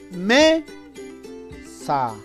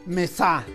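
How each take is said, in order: First: The stress is on the first syllable. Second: The stress is on the second syllable. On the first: The speaker calls it right. "la sílaba me es la sílaba tónica" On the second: The speaker calls it wrong. "si la sa llevara o tuviera la mayor fuerza de voz"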